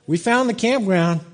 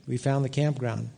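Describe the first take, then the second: First: Higher-pitched, pleased announcement; retold triumph. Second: Soft, subdued statement; humbled admission. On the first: Dad spotting the campground sign after praying, retold triumph. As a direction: announce the find with mild triumph. Retold find, then humbled repeat. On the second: Retold or imitated. Preacher admitting the lesson he learned, quiet humbled admission. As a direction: let it drop to a quiet admission. Sobered repeat before the lesson.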